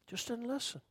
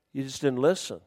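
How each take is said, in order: First: Dropped to a much softer repeat; soft echo. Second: Said in the usual way. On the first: Shown as a demonstration. Preacher repeating the lesson to the congregation, much softer. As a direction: let the words sink in softly.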